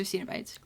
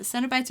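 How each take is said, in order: First: Cenobites with a long e, SEE-no-bites; long first vowel. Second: Cenobites with a short e, SEN-oh-bites; short first vowel. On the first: Unsure speaker offers another pronunciation of Cenobites, long ee in SEE. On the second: Unsure speaker offers one pronunciation of Cenobites, short e in SEN. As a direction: say Cenobites starting like "send". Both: Shown as a demonstration. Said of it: "Can you correct me on that?".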